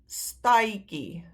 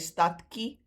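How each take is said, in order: First: The vowel glides to i, then a k sound. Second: A clear d is followed by a k sound. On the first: The speaker calls it right. "we say stai" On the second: The speaker calls it wrong. "we don't say stadkie"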